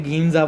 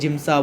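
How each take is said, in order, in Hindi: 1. इसकी शुरुआत कड़े g और लंबे ee से होती है। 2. यह j से शुरू होता है और sa पर खत्म होता है। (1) "कोई उसे गीमजा बोलता है" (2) "कोई जिम्सा बोलता है"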